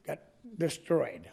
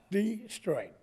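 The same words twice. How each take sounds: First: Said in the usual way. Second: Destroyed pitched high, then falling steeply; emphatic repeat. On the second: Real, not acted. Resident complaining about the street, Destroyed repeated with high, falling emphasis. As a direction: hit Destroyed high and let it drop.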